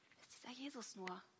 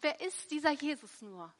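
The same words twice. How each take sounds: First: The question sounds fearful and doubtful. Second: The question sounds joyful and delighted. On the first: The asker worries something bad will happen. "jemand ängstlich skeptisch" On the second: The asker is glad he has come. "richtig freudig mit in den Chor eingestimmt"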